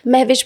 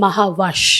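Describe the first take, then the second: First: Two syllables, ending in 'vish'. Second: Three syllables, ending in 'vash'. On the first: The speaker calls it wrong. "बहुत सारे लोग महविश ... तो वो गलत pronunciation है" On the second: The speaker calls it right. "इसकी proper pronunciation है"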